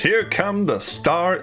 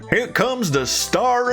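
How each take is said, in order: First: It is said in the speaker's ordinary accent. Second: It is said in a put-on Floridian accent. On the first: The speaker calls it wrong. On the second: The speaker calls it right.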